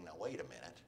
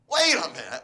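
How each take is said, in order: First: Low, soft second thought; dawning doubt. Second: Loud acted jolt of realization; indignant outburst. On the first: Acted. Spouse rethinking the divorce a month later, quietly doubtful. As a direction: say it quietly, just starting to realize. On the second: Spouse realizing the big mistake, loudly indignant. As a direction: burst out loud, stopping yourself short.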